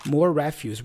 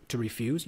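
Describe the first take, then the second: First: "refuse" as REF-yoos; noun stress. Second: "refuse" as ri-FYOOZ; verb stress. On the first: Explaining the word for trash, noun stress. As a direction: stress the first syllable of "refuse". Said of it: "Refuse here is like trash". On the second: Explaining the verb to learners, verb stress. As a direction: stress the second syllable of "refuse". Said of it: "that's the verb". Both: Shown as a demonstration.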